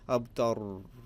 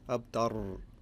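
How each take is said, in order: The two takes are said the same way.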